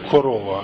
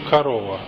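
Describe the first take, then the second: First: The unstressed vowels are pronounced as full 'o'. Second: The unstressed vowels are reduced toward 'a'. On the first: This follows the spelling, as in some regions. "Мы не говорим корова" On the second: This is the usual, more convenient everyday pronunciation. "а говорим корова, потому что нам так удобнее"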